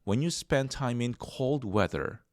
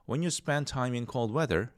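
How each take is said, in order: First: The words cold weather are strongly emphasized. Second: The words cold weather get no special emphasis. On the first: "cold weather를 강조하고 싶다" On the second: "이렇게 할 수도 있지만"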